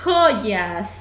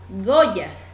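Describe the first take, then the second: First: The first consonant is a harsh throaty sound. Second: The first consonant is a soft g sound. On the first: The speaker calls it right. "yo quiero que suene fuerte, entonces tengo que escribir con J" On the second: The speaker calls it wrong. "Si yo pongo con la G, va a sonar Goyas"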